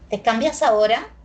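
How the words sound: The pitch rises at the end. It is a yes-or-no question. "Y le cambié el tono. Tiene entonación ascendente"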